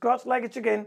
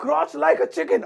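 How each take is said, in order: First: Said in the usual way. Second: Lifted up and louder, like an order; louder, higher repeat. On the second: Shown as a demonstration. Teacher repeats the phrase higher and louder for the class. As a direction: say it again higher and louder, as a command. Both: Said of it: "इससे आप English में बोलेंगे".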